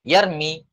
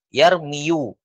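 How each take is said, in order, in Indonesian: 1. Kata ini berakhir dengan vokal 'i' biasa. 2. Kata ini berakhir dengan suku kata 'yu' yang utuh. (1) "maka mereka simpelkan, sudah sembunyikan saja dhammanya"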